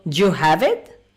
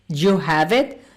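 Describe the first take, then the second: First: 'Did you' shrinks into one short syllable. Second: 'Did you' shrinks into one short syllable.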